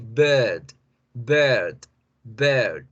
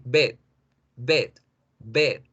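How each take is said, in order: First: Bird with a long er; lengthened vowel. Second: Bed with a short, unlengthened e; short vowel. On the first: Teacher contrasts bird with bed, long vowel. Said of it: "al alargar la vocal E, genero la vibración". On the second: Teacher contrasts bed with bird, short vowel. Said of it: "Si yo no alargo la vocal". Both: Shown as a demonstration.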